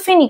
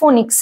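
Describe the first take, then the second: First: The first vowel is a long 'ee' sound. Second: The first vowel is a short 'o' sound. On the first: The speaker calls it right. "উচ্চারণটা কিন্তু phoenix" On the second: The speaker calls it wrong. "not phonics"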